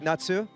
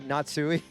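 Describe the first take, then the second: First: The name ends in a plain 'su' sound. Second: The name ends in 'su' plus an 'ee' sound. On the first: The speaker calls it right. "It's just like Natsu" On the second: The speaker calls it wrong. "but I keep saying Natsui"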